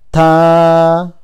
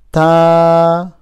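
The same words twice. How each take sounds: No difference in how they are said.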